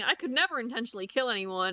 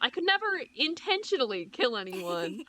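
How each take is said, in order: First: No word is strongly emphasized. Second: The word intentionally is strongly emphasized. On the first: Killing someone is ruled out entirely. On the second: Killing someone by accident might still be acceptable.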